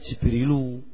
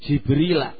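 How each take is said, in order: First: The word ends with a short 'u' vowel. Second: The word ends with an 'ah' sound. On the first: The speaker calls it wrong. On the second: The speaker calls it right.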